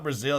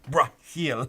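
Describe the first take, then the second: First: It is said in a plain English way. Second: It is said with exaggerated foreign flair. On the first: The speaker calls it wrong. "it's not Brazil" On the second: The speaker calls it right. "you gotta like overemphasize it"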